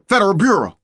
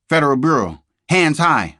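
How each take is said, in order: First: Much higher, much louder yell; a piercing police yell; full shout. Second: Loud, high shout of an FBI agent; a raised, urgent police call; agent's shout. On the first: FBI agents storm in. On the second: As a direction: bark it as a sudden arrest. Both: A narrator's reading.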